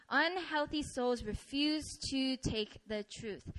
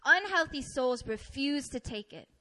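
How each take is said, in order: First: Slow, deliberate repeat ending on "truth"; slow emphasis. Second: Said in the usual way. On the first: Real, not acted. Preacher driving the point home, slow emphasis. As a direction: space out the words and land on "truth".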